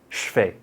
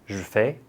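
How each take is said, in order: First: It is said very fast, sounds run together. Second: It is said a bit faster.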